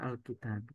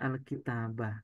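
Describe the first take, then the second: First: The word ends without any final vowel. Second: The word ends with an a vowel. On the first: The speaker calls it wrong. "bukan Alkitab" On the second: The speaker calls it right. "kita baca Alkitabah"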